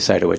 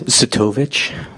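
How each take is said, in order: First: The name is said with an anglicized pronunciation. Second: The name is said with its original pronunciation. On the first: This is how most people pronounce the name. "most people say Sidowitz" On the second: This is how the family name is really pronounced. "If you want the real pronunciation"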